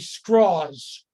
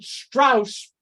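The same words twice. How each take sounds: First: The vowel sounds like 'aw' in 'straws'. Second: The vowel sounds like 'ow' in 'house'. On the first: This is how the man himself wanted it said. The speaker calls it right. "He wanted to be Strauss" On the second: This is the usual way people say the name. The speaker calls it wrong. "you might have pronounced it Strauss, but he didn't like that"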